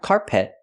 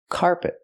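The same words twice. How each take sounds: First: Both syllables are stressed equally. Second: Only the first syllable is stressed. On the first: The speaker calls it wrong. "I cannot stress both syllables" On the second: The speaker calls it right. "I stress the first syllable"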